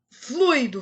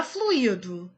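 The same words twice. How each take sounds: First: "fluido" as FLÚI-do, two syllables; correct stress. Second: "fluido" as flu-Í-do, three syllables; wrong stress. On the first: Teacher correcting the noun, stress on U. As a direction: hit FLÚI as one syllable. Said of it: "Não é fluido". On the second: Teacher rejecting the wrong form, stress on I. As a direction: lean on the I in "fluido". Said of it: "Não é". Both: Shown as a demonstration.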